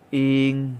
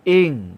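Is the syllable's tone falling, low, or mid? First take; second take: mid; falling. First: The syllable is said with a mid tone. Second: The syllable is said with a falling tone. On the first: "สามัญ" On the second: "เสียงวรรณยุกต์โท"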